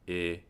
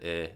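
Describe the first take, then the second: First: The vowel is said in a more closed position. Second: The vowel is said in a relaxed, open position. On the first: "it might come out like I" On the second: "instead of I"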